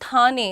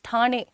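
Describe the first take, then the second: First: The name is said in an anglicized way. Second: The name is said in the local way. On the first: The speaker calls it wrong. "It's not थाने" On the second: The speaker calls it right. "It's ठाणे"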